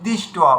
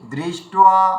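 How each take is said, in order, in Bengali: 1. 'd' টা ছোট করে বলা হয়, 'ri' টা হালকা। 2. 'd' এর পরে স্পষ্ট 'ri' উচ্চারণ হয়। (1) "যেখানে দয় রি থাকে উচ্চারণ করার সময় দয় হস্যি উচ্চারণ করে দিই" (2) "দ্রি এর উচ্চারণটা যখন করবেন দেখবেন খুব সুন্দর একটা টোন বেরোবে"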